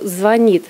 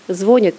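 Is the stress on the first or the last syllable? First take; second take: last; first. First: The stress is on the last syllable. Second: The stress is on the first syllable. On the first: This is the traditional standard form. "единственно правильную форму" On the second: This is the colloquial form that may become the norm. "сменит"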